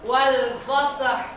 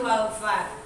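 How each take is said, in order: First: The final h sound is clearly pronounced. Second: The final h sound is left out. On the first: The word means victory. The speaker calls it right. "Jadi huruf H-nya harus kita kenain" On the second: The word means something lost or gone. The speaker calls it wrong. "Kalau wal fat kita baca itu salah ar- arti"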